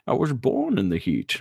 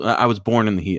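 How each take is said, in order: First: It is said in a put-on character voice. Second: It is said in his normal voice.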